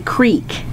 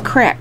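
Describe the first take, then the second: First: The vowel is a long 'ee' sound. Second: The vowel is a short 'i' sound. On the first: This is how people say it locally. "here they always say creek" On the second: This is how people say it in Minnesota. "In Minnesota, we say crick"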